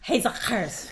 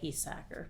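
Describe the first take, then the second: First: The surname is said with its Dutch pronunciation. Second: The surname is said with a common American pronunciation. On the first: This is how the name is said in Dutch. "the Dutch pronunciation is Hesackers" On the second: This is how most people around here say the name. "around these parts, we just say Hesacker"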